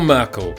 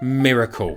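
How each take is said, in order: First: The name is said with two syllables. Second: The name is said with three syllables. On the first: This is how people read the name at first sight. "as a lot of people will pronounce it the first time" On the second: This is how the name is meant to be said. "This is Miracle"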